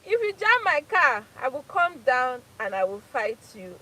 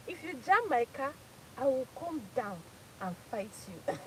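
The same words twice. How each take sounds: First: Hammed-up road-rage threat; mock shout. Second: Said in the usual way. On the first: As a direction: bark the threat like a fighter. Repeats the threat louder.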